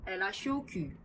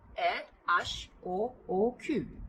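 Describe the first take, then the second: First: The letters are run together quickly into a phrase. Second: The letters are read slowly, one by one. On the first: "좀 더 빠르게 읽어보면" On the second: "불어로 천천히 읽어본다면"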